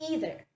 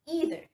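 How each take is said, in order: Both takes have the same delivery.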